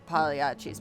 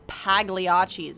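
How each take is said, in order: First: The gl is said as a soft Y-like L. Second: The gl is said as a hard L. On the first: The speaker calls it right. "you gotta have that like Y into an L sound" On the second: The speaker calls it wrong. "it's not Pagliacci's"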